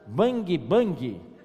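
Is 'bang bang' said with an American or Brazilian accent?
Brazilian. It is said with a Brazilian Portuguese accent. "brasileiro faz bang bang"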